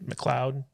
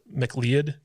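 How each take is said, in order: First: The name is said differently from its spelling. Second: The name is said just as it is spelled.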